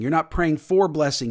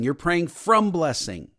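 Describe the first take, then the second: First: "for" lifted and leaned on; stress on for. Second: "from" stressed, said slowly; slow down and hit "from". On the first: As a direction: lean on the word "for". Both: Shown as a demonstration.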